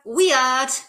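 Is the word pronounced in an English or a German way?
German. It is pronounced with a German-style accent. This is how German teenagers say it. "or uh, weird"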